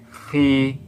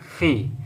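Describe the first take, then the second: First: The vowel is drawn out long. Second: The vowel is short and clipped. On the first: "Ini yang dibaca dengan panjang" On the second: "Tidak dibaca dengan panjang, tapi dibaca fi"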